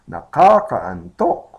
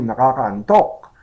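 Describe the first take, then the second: First: The word is said slowly, broken up. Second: The word is said at normal speed.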